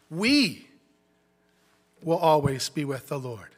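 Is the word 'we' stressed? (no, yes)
yes. The word 'we' is stressed. All believers will be with the Lord together.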